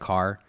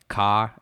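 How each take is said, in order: First: The final R sound is pronounced. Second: The final R sound is dropped. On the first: "instead of car" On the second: "they never drop the R, like ca"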